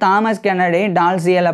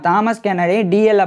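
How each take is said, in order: First: The surname is said with its middle sounds. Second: The surname is said as a short 'dee-ell'. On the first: This is the American way to say the name. The speaker calls it wrong. "United states American இங்கிலீஷ்ல தான் pronunciation" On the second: This is the British way to say the name. The speaker calls it right. "British இங்கிலீஷ்ல வந்து"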